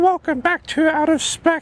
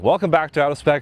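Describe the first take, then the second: First: It is said in a put-on voice. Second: It is said in a natural voice.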